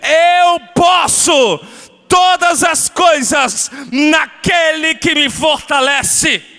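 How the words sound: It is said forcefully, with strong conviction.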